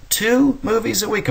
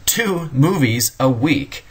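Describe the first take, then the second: First: Astonished. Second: Said in the usual way. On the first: Real, not acted. Lecturer marvels to students at moviegoing, astonished high. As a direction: voice leaps high in disbelief. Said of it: "this astounded me".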